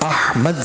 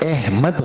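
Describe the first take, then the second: First: The first vowel is an 'a' sound. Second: The first vowel is an 'e' sound. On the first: This is the original Arabic reading. The speaker calls it right. "अहमद सही है" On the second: This is the Urdu habit of reading it. The speaker calls it wrong. "अहमद गलत है"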